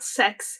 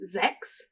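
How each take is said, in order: First: The word begins with a hissing s sound. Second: The word begins with a buzzing z sound. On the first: The speaker calls it wrong. "It is not sex" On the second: The speaker calls it right. "Something close to a Z sound to an English speaking ear"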